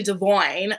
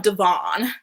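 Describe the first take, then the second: First: "Devoyne" with an OY sound; corrected pronunciation. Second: "Devon" with an AHN ending; old pronunciation. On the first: Host corrects his name for viewers, "Devoyne" said duh-VOYN. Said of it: "pronouncing his name correctly". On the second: Host recalls what everyone used to call him, "Devon" said duh-VAHN. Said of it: "it's actually Devoyne". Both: Shown as a demonstration.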